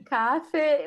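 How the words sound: It is said the way people in Germany say it.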